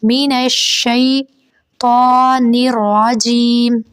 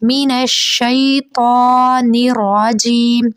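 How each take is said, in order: The two takes are said the same way.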